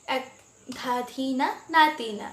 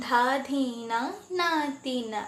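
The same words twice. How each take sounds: First: "ধা ধি না, না তি না" spoken as even rhythmic syllables; counting the beats. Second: "ধা ধি না, না তি না" counted softly beat by beat; counting on fingers. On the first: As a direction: tap out ধা ধি না, না তি না in time. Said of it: "দুভাবে দেখালাম". (তাল গুনে বলা) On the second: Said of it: "মাত্রাগুলো আঙুল দিয়ে দেখানো". (আঙুলে মাত্রা গুনে বলা) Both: Shown as a demonstration.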